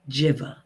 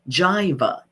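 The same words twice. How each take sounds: First: The first vowel sounds like 'ih'. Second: The first vowel sounds like 'eye'. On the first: "the short I, it doesn't say its name" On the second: "that long I says its name"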